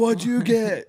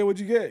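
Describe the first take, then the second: First: It is said loudly, almost shouted. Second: It is said with a slightly raised voice. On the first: The music would be too loud to talk normally. "it's not loud to where you're like" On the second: The music needs only a little extra voice. "you have to have a little bit of a voice"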